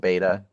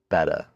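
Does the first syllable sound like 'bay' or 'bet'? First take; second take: bay; bet. First: The first syllable sounds like 'bay'. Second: The first syllable sounds like 'bet'. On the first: The speaker calls it wrong. "I always thought it was beta" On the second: The speaker calls it right. "but it's betta"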